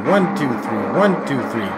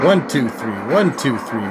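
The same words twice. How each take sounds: The two takes are said the same way.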